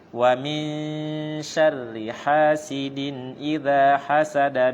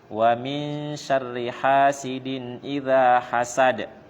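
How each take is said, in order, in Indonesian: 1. Kata terakhir langsung bersambung ke kata-kata berikutnya. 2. Bacaan berhenti setelah kata terakhir. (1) "menyambung akhir surat dengan basmalah kemudian berhenti" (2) "berarti ini udah dipisah"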